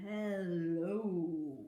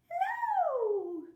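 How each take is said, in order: First: It is said in a very low voice. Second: It is said in a very high voice.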